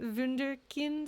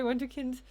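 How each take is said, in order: First: It is said with a German accent. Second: It is said with a plain English accent.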